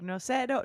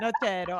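First: The name is said with a Latina accent. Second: The name is said with an Italian accent.

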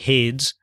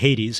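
First: The ending is silent, giving one syllable. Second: The ending is sounded as a second syllable. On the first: The speaker calls it wrong. "you don't say Hades" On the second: The speaker calls it right. "you say Aphrodite and Hades"

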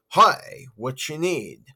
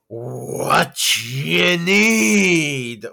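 First: It is said in a less creepy voice. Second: It is said in a creepy voice.

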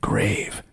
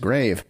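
First: It is said in a spooky put-on voice. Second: It is said in a normal speaking voice.

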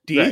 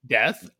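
First: The vowel is long, as in teeth. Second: The vowel is short, as in breath.

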